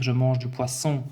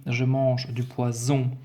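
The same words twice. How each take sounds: First: "poisson" with a sharp unvoiced S; "poisson" clearly with a hard S. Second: "poison" with a voiced Z, slightly slowed; "poison" carefully voiced with Z. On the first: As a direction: say "poisson" as pwasson with a hissed S. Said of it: "je veux écrire". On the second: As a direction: say "poison" as pwazon with a buzzing Z. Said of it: "Si maintenant j'écris". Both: Shown as a demonstration.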